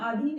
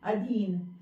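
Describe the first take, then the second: First: The first vowel is a long a. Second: The first vowel is a short a. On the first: The speaker calls it wrong. "अशुद्ध रूप में बोलते हैं आधीन" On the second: The speaker calls it right. "जबकि शब्द है अधीन"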